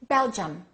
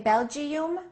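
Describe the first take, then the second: First: The last vowels are reduced to a weak sound. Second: The last vowels are full, unreduced sounds. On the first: The speaker calls it right. "the I and the U sound exactly the same as the E in Sweden" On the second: The speaker calls it wrong. "Do we say"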